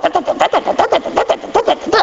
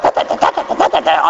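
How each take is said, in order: First: High-pitched mock chatter climbing higher; mocking two women yakking away. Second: Mock whispered chatter. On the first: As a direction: squeal out nonsense gossip. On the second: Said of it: "They're like".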